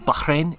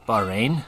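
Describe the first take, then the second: First: It is said with the local, native pronunciation. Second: It is said with an American pronunciation. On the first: "how it's supposed to be said" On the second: "Bahrain in American"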